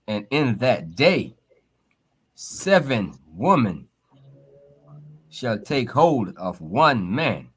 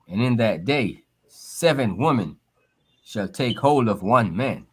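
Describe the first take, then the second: First: It is read slowly and deliberately. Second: It is read at a normal speed.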